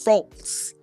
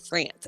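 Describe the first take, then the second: First: It is said with a French accent. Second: It is said with an American accent. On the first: The speaker calls it right. "and it's France" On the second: The speaker calls it wrong. "Americans say France"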